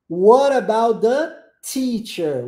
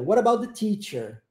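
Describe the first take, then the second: First: "What about the teacher" drawn out, louder, crisp T in "teacher"; slow, emphatic phrase with hissed T on "teacher"; slow careful model. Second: Said in the usual way. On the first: Shown as a demonstration. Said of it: "Som do T".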